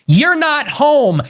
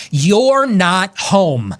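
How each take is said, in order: First: You're not home, shouted much higher and louder, very slow; furious, pitched-up slow shout; angry shout. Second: You're not home, very slow with each word weighted; slow firm warning. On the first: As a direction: bellow it word by word. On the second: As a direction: lay down the line slowly and firmly. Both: Real, not acted. Warning aimed at rivals.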